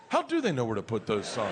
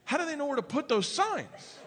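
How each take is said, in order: First: Low-pitched, earnest wondering; sincere pondering. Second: High-pitched mock kid question; questioning daughter. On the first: Retold or imitated. Dad thinking to himself in the car, sincerely. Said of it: "thinking sincerely to myself". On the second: Daughter asks dad about the signs, puzzled. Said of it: "She goes".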